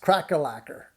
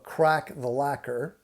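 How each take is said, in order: First: The phrase is said quickly, the words run together. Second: The phrase is said at an ordinary, unhurried speed.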